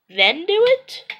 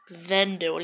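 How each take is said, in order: First: "then do it?" climbing high and loud at the end; questioning. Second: "then do it." falling at the end; falling tune. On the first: Shooters agreeing on a count, "then do it?" asked rising. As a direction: lift "then do it?" into a clear question. Asking which count to act on. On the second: Shooters offering the other count, "then do it." said falling. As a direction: let "then do it." drop, without a questioning lift. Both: Retold or imitated.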